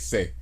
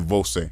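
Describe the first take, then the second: First: The first syllable is dropped, leaving one. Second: Both syllables are said in full. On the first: "you don't say você, you say say" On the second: "to say you informally, you say você"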